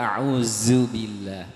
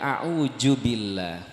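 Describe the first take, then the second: First: The middle consonant is pronounced as j. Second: The middle consonant is pronounced as d. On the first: "ada yang pakai jim" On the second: "ada yang pakai dal"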